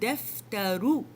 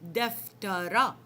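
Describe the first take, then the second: First: The word ends in a short 'oo' vowel. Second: The word ends in a short 'a' vowel. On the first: "the damma sound is like oo" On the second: "This is how we should pronounce it when we put fatha on the top"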